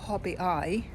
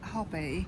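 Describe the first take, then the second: First: The name ends with an added vowel sound. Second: The name ends without an added vowel sound. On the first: This copies how the map guide says it. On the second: This is the speaker's own way of saying it.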